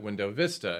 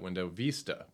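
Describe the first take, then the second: First: Vista is said with an American English pronunciation. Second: Vista is said with a Spanish pronunciation. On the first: "But everybody called it Window Vista" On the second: "because in Spanish, that's how you pronounce it"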